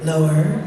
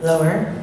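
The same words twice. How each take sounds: First: Deep settled voice; even deeper voice. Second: Pitched low, questioning rise; deeper voice. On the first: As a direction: lower still, settling down. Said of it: "I said". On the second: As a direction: drop the voice down and ask. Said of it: "and I went". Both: Shown as a demonstration.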